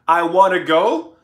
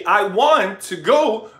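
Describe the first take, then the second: First: 'Want to' is run together as 'wanna'. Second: 'Want to' is said in full, two clear words.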